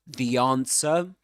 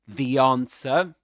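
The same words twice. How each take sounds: First: It is said in a British accent. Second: It is said in a British accent.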